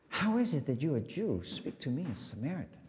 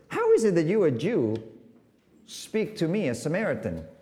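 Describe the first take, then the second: First: The question is asked in a vulnerable tone. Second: The question is asked in a cynical tone. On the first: The speaker is genuinely surprised and exposed. "the difference is cynicism to vulnerability" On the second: The speaker is mocking the other person. "the difference is cynicism to vulnerability"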